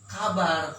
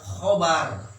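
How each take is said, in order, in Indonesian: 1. Dimulai dengan k biasa dan vokal yang ringan. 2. Dimulai dengan kh tenggorokan dan vokal yang lebih gelap. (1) "lain kabar"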